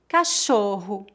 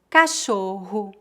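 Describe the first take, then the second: First: The double r sounds like an English 'h'. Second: The double r sounds like an English 'h'.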